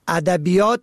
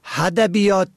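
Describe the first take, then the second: First: The word begins with a plain vowel. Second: The word begins with an h sound. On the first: The speaker calls it right. "که با الف شروع می شود" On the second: The speaker calls it wrong. "با ه هدبیات تلفظ می کنن"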